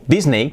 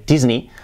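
First: "Disney" ending in "ey"; Spanish-style pronunciation. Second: "Disney" as DIZ-nee; buzzed S and final "ee" in "Disney"; real English pronunciation. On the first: Teacher showing what Spaniards say, hispanicized. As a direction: say "Disney" as DIS-ney, S unvoiced. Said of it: "que decimos". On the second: Teacher showing how it is really said, English pronunciation. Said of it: "realmente se dice Disney". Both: Shown as a demonstration.

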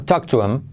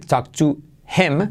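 First: "talk to him" ligado, como "toktuem"; H omitida. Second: "talk to him" con h aspirada en "him"; H pronunciada. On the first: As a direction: di "talk to him" sin aspirar la h. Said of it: "también se omite". ("talk to him" de un tirón, sin h) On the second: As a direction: di "talk to him" separando un "jem". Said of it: "no vamos a decir". ("talk to him" pausado, h audible) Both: Shown as a demonstration.

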